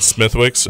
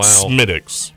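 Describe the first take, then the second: First: The middle 'th' sound is clearly pronounced. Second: The middle 'th' sound is silent. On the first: The speaker calls it wrong. "I think you'd get beat if you went to Ireland and said Smithwicks" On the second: The speaker calls it right. "You got to say it right"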